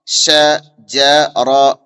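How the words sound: The syllables are said separately with pauses. "अलग अलग करके पढ़ेंगे"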